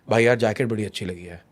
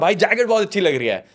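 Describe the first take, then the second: First: It is said in a flat, low-energy tone. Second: It is said in a cheerful, energetic tone.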